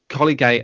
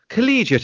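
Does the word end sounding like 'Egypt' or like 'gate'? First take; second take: gate; Egypt. First: The ending sounds like 'gate'. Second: The ending sounds like 'Egypt'. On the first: The speaker calls it wrong. "So I kept on saying" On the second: The speaker calls it right. "just think of Egypt, Irish Egypt"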